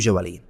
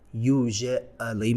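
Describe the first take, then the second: First: The word is said quickly with syllables reduced. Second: The word is said slowly with every syllable full. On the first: "وقتی سریعتر تلفظ میکنن میشه" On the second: "usually میگن"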